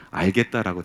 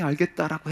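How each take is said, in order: First: Said in the usual way. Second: "알겠다" said higher with incredulous weight; incredulous emphasis. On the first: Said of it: "뭐라고 대답했냐면". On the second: Retold or imitated. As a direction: lean hard on "알겠다" as a broken promise. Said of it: "분명히".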